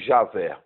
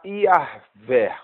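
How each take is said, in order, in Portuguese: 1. O nome começa com som de J. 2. O nome começa com som de I. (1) "essa letra J, ela não existe no original hebraico, e nem o som do J" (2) "porque aí não tem o som do J"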